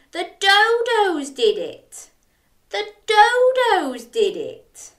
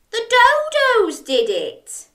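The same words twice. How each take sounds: First: Chanted, high, louder, slowing second time; chanting along. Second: High, louder insistence on dodos; Jack blaming. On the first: Shown as a demonstration. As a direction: lead the children in the chant. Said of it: "Can you say it with me". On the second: Acted. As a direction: point the finger, insistently. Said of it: "cried Jack".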